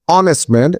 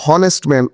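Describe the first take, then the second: First: "অনেস্ট man" starting on the O vowel; silent H. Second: "হনেস্ট man" with an audible H first; H sounded. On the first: Teacher modelling honest man, "অনেস্ট man" with silent H. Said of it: "H এর উচ্চারণ silent হয়ে". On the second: Teacher showing what we don't say, "হনেস্ট man" with H sounded. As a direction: mispronounce "হনেস্ট man" by voicing its H. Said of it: "উচ্চারণ করি না". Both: Shown as a demonstration.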